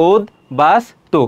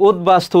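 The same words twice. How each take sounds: First: উদ্বাস্তু slowly as উদ, বাস, তু; syllable-split pronunciation. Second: Said in the usual way. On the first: Shown as a demonstration. Teacher answering how it is pronounced, উদ্বাস্তু split into three. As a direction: separate the three parts of উদ্বাস্তু. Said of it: "সেগুলো তুমি পৃথক পৃথকভাবে লিখবে". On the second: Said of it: "উচ্চারণটা কি হবে?".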